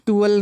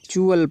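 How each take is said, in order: First: It begins with a plain t sound. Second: It begins with a ch sound. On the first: The speaker calls it wrong. "टुअल नहीं" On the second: The speaker calls it right. "चुअल पढ़ना है"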